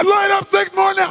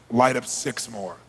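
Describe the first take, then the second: First: High, very loud order; unhinged, explosive command; crazy screaming. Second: Slow, low-pitched order; controlled, measured instruction; calm command. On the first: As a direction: scream it ten times crazier. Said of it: "I go ten times crazy". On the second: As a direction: say it evenly and deliberately. Calm order before screaming. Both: Retold or imitated.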